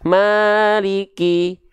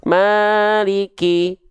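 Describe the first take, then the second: Both takes have the same delivery.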